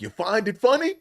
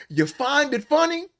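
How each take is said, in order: First: Pitched up, a bit louder, mocking; mock preacher scolding. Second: Much higher, slow, strained cry of offence; mock preacher outrage. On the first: Preacher needles the laughing cameraman, mock outrage. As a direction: call him out as the preacher, needling. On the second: Preacher rages at the laughing cameraman, high strained mock yell. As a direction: stretch it out like a wounded preacher.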